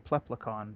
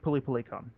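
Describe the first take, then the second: First: Consonants cluster together, English-style. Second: Vowels separate each consonant, Japanese-style. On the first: It does not try to copy the Japanese. "which is why I say Pleplecon" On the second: It copies the original Japanese pronunciation. "the way she says it is like Pilipilicon"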